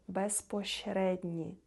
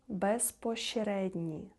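The two takes are said the same way.

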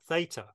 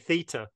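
First: It is said with an American pronunciation. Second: It is said with a British pronunciation. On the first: "not theta" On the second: "of course we say theta"

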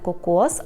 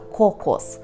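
First: The stress is on the second syllable. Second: The stress is on the first syllable. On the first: The speaker calls it wrong. "наголос тут пильнуйте, не кокос" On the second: The speaker calls it right. "а кокос"

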